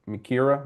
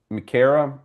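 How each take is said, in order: First: Mikira with an "ear" middle, muh-KEER-uh; second guess at Mikira, stressed KEER in the middle; alternative pronunciation. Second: Mikira with an "air" middle, muh-KAIR-uh; first guess at Mikira, stressed KAIR in the middle; trying a pronunciation. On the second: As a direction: say Mikira to rhyme with Sarah. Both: Shown as a demonstration. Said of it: "is it Mi-, Mikira or Mikira?".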